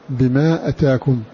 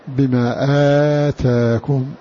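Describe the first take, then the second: First: The first vowel of atakum is short. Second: The first vowel of atakum is long. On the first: This is the reading of one reciter. "بقصر الهمزة بلا مد" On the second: This is the reading of the other reciters. "والباقون قرأوا بمدها"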